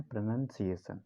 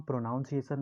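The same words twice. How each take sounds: First: "प्रोनंसिएशन" with short "nun" as second syllable; correct pronunciation. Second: "प्रोनाउंसिएशन" with an "ow" in the second syllable, as in "pronounce"; mispronounced. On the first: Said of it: "इसको हम बोलते हैं प्रोनंसिएशन". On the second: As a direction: say "प्रोनाउंसिएशन" with "nown", not "nun". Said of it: "इसको हम प्रोनाउंसिएशन नहीं बोलते हैं". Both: Shown as a demonstration.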